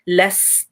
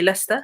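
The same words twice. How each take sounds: First: The silent s sound is clearly held. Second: The silent s sound is rushed over. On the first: The speaker calls it right. "don't skip it" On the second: The speaker calls it wrong. "don't say لست"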